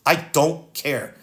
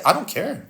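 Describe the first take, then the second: First: "I don't care" slow, each word set apart; slow emphatic repeat. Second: Higher, quick brush-off of "I don't care"; curt dismissal. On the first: Landlord's son rejecting excuses, "I don't care" slow and emphatic. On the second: Landlord's son cutting off tenant's excuses, curt dismissal. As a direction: cut the excuse off. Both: Real, not acted.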